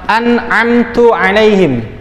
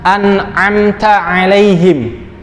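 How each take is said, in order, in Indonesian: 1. Vokal setelah t adalah 'u'. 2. Vokal setelah t adalah 'a'. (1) "kita bacanya malah" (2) "yang seharusnya kita baca"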